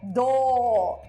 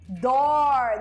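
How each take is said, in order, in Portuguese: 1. O R final não é pronunciado, e a vogal fica alongada. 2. O R final é pronunciado com força. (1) "o britânico falaria" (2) "do americano"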